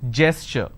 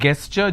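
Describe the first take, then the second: First: The word starts with a soft j sound. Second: The word starts with a hard g sound. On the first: The speaker calls it right. "It is gesture" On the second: The speaker calls it wrong. "It's not gesture just because the letter G is there"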